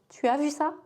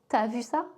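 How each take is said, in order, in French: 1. Le mot tu est prononcé en entier. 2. Le mot tu est raccourci en t'. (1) "Pour tu as" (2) "on dit souvent t'as"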